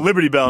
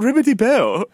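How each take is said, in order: First: It is said in the speaker's plain accent. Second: It is said in a put-on foreign accent.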